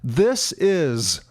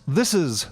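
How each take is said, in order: First: The phrase is said at a normal pace. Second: The phrase is said quickly, run together.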